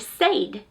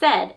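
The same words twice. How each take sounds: First: The vowel sounds like the word 'say'. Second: The vowel sounds like the vowel in 'bed'. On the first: This is how the spelling rules would read it. "If it, you were following the rules, it should say said" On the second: This is how the word is actually spoken. "but we pronounce it as said, S E D"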